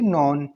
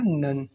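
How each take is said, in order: First: The vowel sounds like the 'o' in 'on'. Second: The vowel sounds like the 'u' in 'fun'. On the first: The speaker calls it wrong. "हमारे rule के according ये होना चाहिए" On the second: The speaker calls it right. "लेकिन इसे क्या पढ़ा जाता है"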